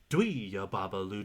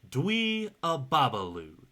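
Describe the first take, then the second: First: It is said fast. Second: It is said slowly.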